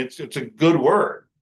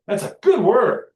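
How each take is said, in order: First: Said in the usual way. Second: "That's a good word." higher and louder, punching "good"; emphatic, pitched up, louder proclamation of "good"; emphatic declaration. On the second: Shown as a demonstration. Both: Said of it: "if you really want to emphasize it".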